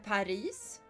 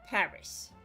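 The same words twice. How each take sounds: First: The stress is on the second syllable. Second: The stress is on the first syllable. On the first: This is the Swedish way of saying it. "So it's still punctuated on the I" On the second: This is the English way of saying it. "And you punctuate the A"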